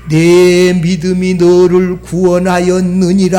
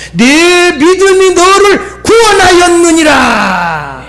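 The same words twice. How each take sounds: First: Preacher voicing Jesus with gravity; solemn pronouncement. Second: High, slow, ringing declaration; impassioned preacher's cry; full-force proclamation. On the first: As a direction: intone it evenly, holding the last syllable. Jesus's words voiced solemnly. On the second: Retold or imitated. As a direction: proclaim it to the congregation, stretching the words. Same words proclaimed to congregation.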